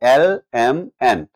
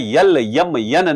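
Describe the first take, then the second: First: Each letter name begins with a plain vowel. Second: Each letter name begins with a y sound. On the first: The speaker calls it right. "It is एल एम एन" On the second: The speaker calls it wrong. "भैया यल यम यन नहीं करना"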